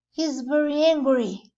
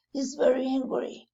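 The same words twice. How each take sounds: First: Very said higher and louder; stress on very. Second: Said in the usual way. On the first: Shown as a demonstration. Teacher stresses "very" to show anger. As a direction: lean hard on "very".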